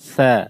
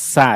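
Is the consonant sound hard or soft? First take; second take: soft; hard. First: The consonant is pronounced soft. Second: The consonant is pronounced hard. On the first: The speaker calls it right. "সাটা একটু সফট নরম হবে।" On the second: The speaker calls it wrong. "সা এরকম না।"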